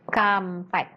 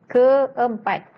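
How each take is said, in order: First: The vowels merge into one syllable. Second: The two vowels are said as separate syllables. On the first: The speaker calls it wrong. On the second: The speaker calls it right.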